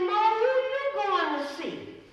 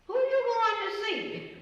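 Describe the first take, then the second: First: Much higher, louder, slow echoed question. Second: Much higher, louder, curious question. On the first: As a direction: toss the same question right back. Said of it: "He said". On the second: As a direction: ask it with eager curiosity. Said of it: "I said". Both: Retold or imitated.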